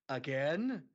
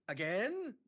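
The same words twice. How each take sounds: First: Loud, drawn-out incredulous AGAIN; exasperated question. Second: High, rising incredulous AGAIN; higher exasperated question. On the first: Brother to experimenting sister, exasperated AGAIN. Imagined weary reply of the brother. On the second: Brother to experimenting sister, high exasperated AGAIN. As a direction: push AGAIN up high in disbelief. Repeated reply, pitched higher. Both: Pretend.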